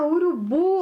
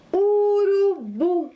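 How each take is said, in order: First: Said in the usual way. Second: "Urubu" stretched long on a raised pitch; slow dictation. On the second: Shown as a demonstration. Teacher presents a new word to pupils, slow dictation. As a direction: draw out each vowel of "Urubu", high.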